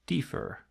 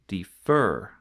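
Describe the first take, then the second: First: Defer stressed on the first syllable, DE; wrong stress on the start. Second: Defer with the stress on the final syllable, FER; stress on the end. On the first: Teacher showing students the wrong stress to avoid. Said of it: "not defer". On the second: Teacher contrasting right and wrong stress for students. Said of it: "the stress falls at the end". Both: Shown as a demonstration.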